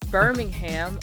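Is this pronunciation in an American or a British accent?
American. It is said in an American accent. "we are in Birmingham"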